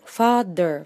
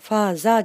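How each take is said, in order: First: The middle consonant is a true th sound. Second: The middle consonant is not a th sound. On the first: The speaker calls it right. "th の発音" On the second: The speaker calls it wrong. "father じゃありません"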